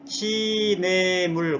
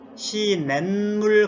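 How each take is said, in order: First: It is said with no added n sound. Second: It is said with an added n sound. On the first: The speaker calls it wrong. "그러지 않고" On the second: The speaker calls it right. "그런단 말입니다"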